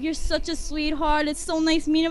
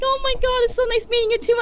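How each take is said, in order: First: Said in the usual way. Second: High, loud starstruck gush; gushing fangirl. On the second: Retold or imitated. Fan saying goodbye to her idol, gushing. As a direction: gush back, voice pitched right up. Retells gushing back to celebrity.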